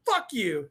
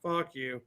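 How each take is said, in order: First: Said in the usual way. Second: Low, whispery mock dad voice; son mimicking dad. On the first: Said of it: "I'm like". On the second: Son copying his dad's comeback, in a low whispery voice. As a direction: echo it low and breathy, parodying dad. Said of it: "impressions of me".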